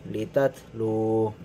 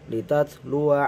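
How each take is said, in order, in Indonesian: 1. Suku kata 'wa' terakhir dihilangkan. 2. Suku kata 'wa' terakhir dibaca. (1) "Jika dibaca wakof" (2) "jika dibaca wasol"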